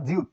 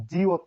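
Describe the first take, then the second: First: জিউত with a u in the second syllable; standard pronunciation. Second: জিওত with an o in the second syllable; variant pronunciation. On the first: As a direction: say জিউত with u, as one unit. (জিউত, উ ধ্বনি দিয়ে উচ্চারণ) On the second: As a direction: stretch it as জি-ওত, with an o. (জিওত, ও ধ্বনি দিয়ে উচ্চারণ) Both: Shown as a demonstration. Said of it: "এই বর্ণের উচ্চারণ জিউত".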